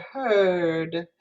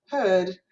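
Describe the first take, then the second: First: "heard" drawn out with a hooked American R; R-coloured. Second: "Heard" British-style, vowel without any R; no hooked R. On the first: Teacher contrasting British and American vowels, "heard" with hooked R. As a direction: hold a curled R through "heard". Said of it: "this one has the R color". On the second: Teacher contrasting British and American vowels, "Heard" without R. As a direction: drop the R from "Heard". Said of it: "wouldn't pronounce that hooked R". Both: Shown as a demonstration.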